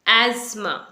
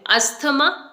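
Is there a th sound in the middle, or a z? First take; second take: z; th. First: The middle has a z sound. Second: The middle has a th sound. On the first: The speaker calls it right. "इसकी जो exact pronunciation है वो है एज्मा" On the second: The speaker calls it wrong. "ना तो इसे आपने एस्थमा बोलना है ना अस्थमा बोलना है"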